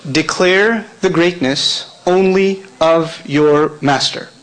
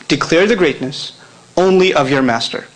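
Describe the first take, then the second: First: Very slow, each word spaced for note-takers; slow dictation. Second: Said in the usual way. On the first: Shown as a demonstration. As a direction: dictate it slowly so they can write. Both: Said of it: "write this in English".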